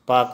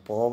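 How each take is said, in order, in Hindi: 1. इस अक्षर का स्वर 'a' है। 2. इस अक्षर का स्वर 'o' है।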